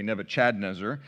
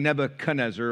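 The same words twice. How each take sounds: First: "Nebuchadnezzar" said with CHAD in the middle, as in the name; "Nebuchadnezzar" punned as Nebu-CHAD-nezzar; joking mispronunciation. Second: Said in the usual way. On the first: Retold or imitated. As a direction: swap the "kuh" in "Nebuchadnezzar" for a clear "Chad". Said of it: "as he likes to say".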